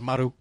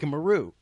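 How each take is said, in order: First: It is said with a Japanese-style pronunciation. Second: It is said with an English-style pronunciation. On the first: The speaker calls it right. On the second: The speaker calls it wrong.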